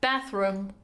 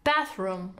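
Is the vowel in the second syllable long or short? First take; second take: short; short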